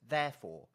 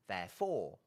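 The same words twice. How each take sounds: First: The stress is on the first syllable. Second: The stress is on the second syllable. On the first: "you can put the accent on the first syllable" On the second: "or the second syllable"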